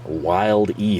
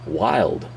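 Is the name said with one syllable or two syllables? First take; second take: two syllables; one syllable. First: The name is said as two syllables. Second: The name is said as one syllable. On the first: The speaker calls it right. "Think of Wile E. Coyote. Take wild and add an E" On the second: The speaker calls it wrong. "Some of you might think it's Wildy or Wild. The E is silent"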